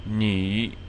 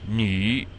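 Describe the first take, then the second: First: The syllable has a dipping third-tone pitch. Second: The same.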